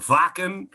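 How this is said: It is said with a German pronunciation.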